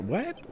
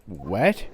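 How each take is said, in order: First: What? pitched high and rising; high squeaky what. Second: Said in the usual way. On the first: Shown as a demonstration. Trying a new voice for the character, high What?. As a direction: squeak out What? much higher. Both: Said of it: "I should give him a Canadian accent".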